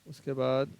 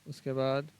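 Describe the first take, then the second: The two takes are said the same way.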